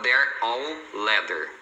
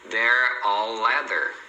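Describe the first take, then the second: First: Each word is said separately. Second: The words run together with one stretched L. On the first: The speaker calls it wrong. "Você não vai falar they're all leather separado" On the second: The speaker calls it right. "Você fala o L uma vez só aqui"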